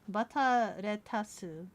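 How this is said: It is said with Japanese pronunciation. "I'm saying it with the hiragana pronunciation of bata"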